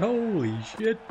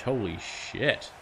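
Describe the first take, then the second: First: "Holy shit." yelled high and loud, rising; excited shout. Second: "Holy shit." stretched out slow at normal pitch; slow amazed repeat. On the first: Gamer stunned by the clean bowled, high loud shout. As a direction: shriek "Holy shit." in disbelief. First reaction to wicket. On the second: Gamer replaying the wicket in his head, slow drawn-out. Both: Real, not acted.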